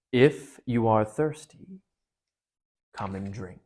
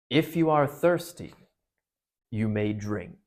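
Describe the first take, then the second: First: Slow, heavy lion voice sinking at the end; a hint of a deep, calm lion; lion's golden voice. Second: Lion's golden voice. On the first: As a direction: let the lion speak slowly and gravely. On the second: Acted. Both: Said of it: "a deeper, wilder, and stronger, a sort of heavy, golden voice".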